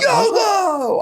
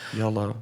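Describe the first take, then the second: First: It is shouted loudly. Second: It is said quietly.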